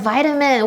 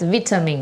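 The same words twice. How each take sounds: First: The word has an American pronunciation. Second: The word has a British pronunciation.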